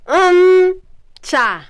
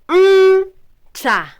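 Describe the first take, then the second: No difference in how they are said.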